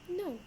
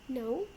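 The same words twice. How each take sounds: First: The pitch falls at the end. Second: The pitch rises at the end. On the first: "when my intonation goes down, it sounds like this" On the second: "when my intonation goes up, it sounds like this"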